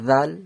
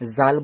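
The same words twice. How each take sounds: First: It starts with the tongue between the teeth. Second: It starts with a plain j sound. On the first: The speaker calls it right. "এটা জিভ বার করে বলতে হয়" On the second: The speaker calls it wrong. "জাল বলবেন না"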